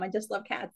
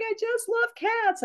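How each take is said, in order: First: Said in the usual way. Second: Much higher, slow, teary wail; mock crying. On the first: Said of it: "That's how I am". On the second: Quoting a weepy woman from a dating site, mock sobbing. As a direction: imitate a woman sobbing over her cats, hammed up. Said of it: "where she was crying".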